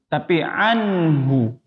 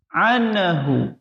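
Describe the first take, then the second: First: The n passes straight into h without bouncing. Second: The n bounces with a short vowel before h. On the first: The speaker calls it right. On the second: The speaker calls it wrong. "ini contoh yang salah ya"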